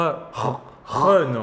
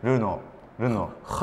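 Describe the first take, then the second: First: "はの" opened with a raspy throat R; French pronunciation. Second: "ルノー" with a plain Japanese R; Japanese pronunciation. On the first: Host attempts Renault after the guest, throaty French R. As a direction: exaggerate the French R in "はの". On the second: Host tries Renault for the guest, plain Japanese pronunciation. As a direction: say "ルノー" in katakana sounds. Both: Shown as a demonstration. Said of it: "ルノーもう一度お願いし".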